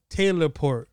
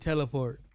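First: The first part sounds like 'Taylor'. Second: The first part sounds like 'telly'. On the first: This is the official name. "it's called Taylor Port" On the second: This is a personal way of saying it. "I pronounce it teleport"

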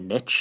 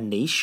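First: The word is pronounced in the American way. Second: The word is pronounced in a non-American way. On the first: The speaker calls it wrong. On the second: The speaker calls it right.

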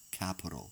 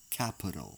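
First: The unstressed vowels are reduced to a schwa. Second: The same.

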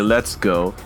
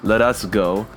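First: 'Let us' is contracted to 'let's'. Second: All three words are said in full. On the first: This is the later, shortened way of saying it. "Then we used to say" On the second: This is the older way of saying it. "We used to say"

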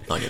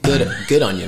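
First: The words blur into one short word, onya. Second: All three words are said separately and fully. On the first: "the less formal Onya" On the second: "you can say"

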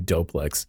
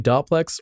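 First: The first syllable sounds like 'doe'. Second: The first syllable has a short 'dop' vowel. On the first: The speaker calls it right. "are they going to be smart and say Doplex" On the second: The speaker calls it wrong. "Are they going to say Doplex"

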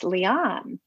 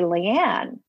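First: The name is said the way she says it. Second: The name is said the usual American way. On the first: This is how the name's owner says it. The speaker calls it right. "well, it's Leanne" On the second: This is how the name is commonly said in America. The speaker calls it wrong. "you all say Leanne"

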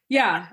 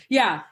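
The two takes are said the same way.

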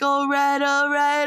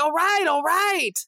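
First: It is said in a relaxed, drawling way. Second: It is said in a brisk, impatient way. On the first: It is easygoing and relaxed. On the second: Enough already.

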